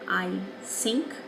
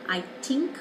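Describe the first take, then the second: First: The word begins with a d sound. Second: The word begins with a t sound. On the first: "as a D" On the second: "a T"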